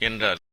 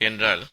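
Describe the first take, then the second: The two takes are said the same way.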